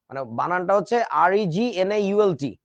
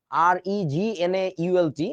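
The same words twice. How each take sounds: First: Said in the usual way. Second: Slow, deliberate letters for dictation; slow spelling. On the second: Shown as a demonstration. Teacher spelling the name for students, slow. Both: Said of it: "তো উচ্চারণটা জি silent".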